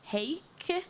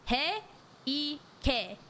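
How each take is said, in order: First: "Heik" as one syllable, rising high in a question; questioning stab at "Heik", ending on the k; unsure pronunciation. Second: "He-ike" broken slowly into syllables, he-i-ke; "He-ike" carefully split, starting high; sounded out. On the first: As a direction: try "Heik" like "hake", unsure. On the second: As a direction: sound out "He-ike" piece by piece, ending in "keh". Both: Shown as a demonstration. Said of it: "how the hell do I say that".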